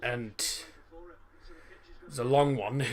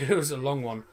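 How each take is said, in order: First: Slow, stretched-out words; drawn-out. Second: Said in the usual way. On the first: Shown as a demonstration. Streamer recalls the coach trip to France, drawn out slowly. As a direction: drag each word out to show how long.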